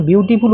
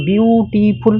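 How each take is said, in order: First: Said in the usual way. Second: বিউটিফুল stretched into বিউ-টি-ফুল; syllable by syllable. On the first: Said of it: "বিউটিফুল উচ্চারণ করো". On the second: Shown as a demonstration. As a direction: draw out each syllable of বিউটিফুল separately. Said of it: "কয়েকটা সিলেবেলে তোমাকে ভাঙতে হয়".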